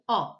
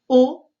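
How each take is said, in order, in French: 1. La voyelle est un o ouvert. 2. La voyelle est un o fermé.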